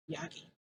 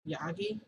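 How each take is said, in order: First: Quiet echo. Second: YAGI with a rising questioning tune; questioning echo. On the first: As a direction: softly echo the name YAGI. Retold stunned reaction to the surname. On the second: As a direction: repeat YAGI as a question, pitch lifting at the end. Retold questioning of the surname. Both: Retold or imitated.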